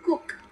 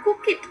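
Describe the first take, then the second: First: The ending is a faint, barely heard sound. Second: The ending is an added separate syllable. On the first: The speaker calls it right. "voiceless, nggak gitu kedengeran" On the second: The speaker calls it wrong. "bukan cook it"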